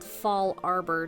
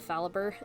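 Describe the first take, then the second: First: It is said as 'fall' plus a full 'arbor'. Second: It is blended into one word, 'fa-la-ber'. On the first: This is the name's proper pronunciation. The speaker calls it right. "I do know that it's called Fall Arbor Town" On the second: This is a guessed pronunciation from the speaker's first playthrough. The speaker calls it wrong. "so I called it Phalaber"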